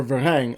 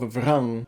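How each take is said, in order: First: "Varang" offered as the other reading, va-RANG; chosen pronunciation. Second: "Vrang" as nearly one syllable, vuh-RAHNG; alternative pronunciation. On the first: Reviewer settling on a character name until the film, chosen pronunciation "Varang". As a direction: say "Varang" as two syllables, Va-RANG. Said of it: "I'm just gonna say Varang". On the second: Reviewer unsure of the film's character name, alternative pronunciation "Vrang". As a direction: say "Vrang" with the vowels run together, "vrahng". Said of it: "not entirely sure how they will pronounce it".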